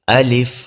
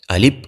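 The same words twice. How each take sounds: First: The word ends with an f sound. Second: The word ends with a p sound. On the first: The speaker calls it right. "دواړه شونډې نه یو ځای کول" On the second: The speaker calls it wrong. "دواړه شونډې یو ځای شوې غلط شو"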